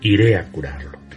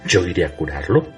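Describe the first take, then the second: First: It is said as a statement, falling at the end. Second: It is said as a question, rising at the end.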